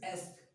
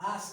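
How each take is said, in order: First: The vowel sounds like a short eh. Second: The vowel sounds like a long ah. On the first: The speaker calls it right. "It's एस्क" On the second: The speaker calls it wrong. "आस्क नहीं होता है"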